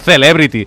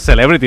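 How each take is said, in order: First: The word is pronounced with Spanish sounds. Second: The word is pronounced with English sounds. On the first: The speaker calls it wrong. "no Celebrity" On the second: The speaker calls it right. "si usen anglès la paraula Celebrity, digue-li Celebrity"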